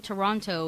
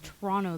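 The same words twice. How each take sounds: First: Toronto with the second T sounded, "to-RON-toe"; careful pronunciation. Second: Toronto with the second T dropped, "tuh-RON-o"; local pronunciation. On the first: Explaining to co-hosts where they're from, Toronto carefully pronounced with both Ts. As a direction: say Toronto with a clear T after the N. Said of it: "I pronounced it ... this way just in case". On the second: Showing co-hosts the hometown accent, Toronto said locally without its second T. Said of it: "if you've heard our accent". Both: Shown as a demonstration.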